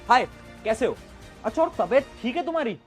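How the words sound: It is said in a lively, engaging way.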